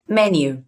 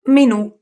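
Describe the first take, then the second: First: Menu stressed on MEN, the final u left weak; English stress. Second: Menù with the stress on the final ù, raised and loud; stress on the end. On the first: Teacher contrasting Italian and English, English first-syllable stress. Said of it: "in English you say menu". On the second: Teacher contrasting Italian and English, stress on final ù. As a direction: hit the ù of Menù. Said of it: "it just changed the accent". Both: Shown as a demonstration.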